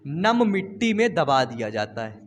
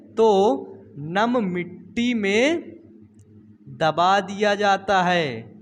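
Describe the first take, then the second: First: Said in the usual way. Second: Slow, word by word, for note-taking; slow dictation. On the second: Shown as a demonstration. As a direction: spell it out slowly so students can write. (धीरे-धीरे लिखवाते हुए) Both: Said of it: "कहो किसमें?".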